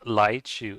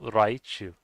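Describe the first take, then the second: First: The first sound is not a clear R. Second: The first sound is a clear R. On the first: "so it's not just Laichu" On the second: "it's also Raichu"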